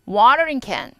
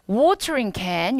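First: It is said with an American accent. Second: It is said with a British accent. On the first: "미국인이면" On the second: "영국식 발음이구나"

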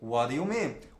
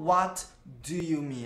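First: The words are linked with an r-like flap. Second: The words are separate with a clear d sound. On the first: "esse D é como se tivesse som de R. Ela juntou o what com do" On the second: "a personagem não falou"

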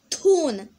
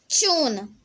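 First: It is said with an American accent. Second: It is said with a British accent.

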